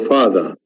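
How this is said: The r after the vowel is dropped. "drop the re sound when it comes after a vowel... So this is the British accent"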